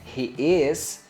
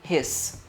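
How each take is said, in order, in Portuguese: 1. Duas palavras completas são ditas separadamente. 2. As palavras são espremidas em uma sílaba curta.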